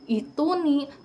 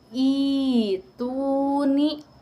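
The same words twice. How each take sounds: First: The first vowel is short, with a glottal stop. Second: The first vowel is long, with no glottal stop. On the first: The speaker calls it wrong. "bukan ituni" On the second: The speaker calls it right. "hamzah kedua diubah menjadi mad atau panjang"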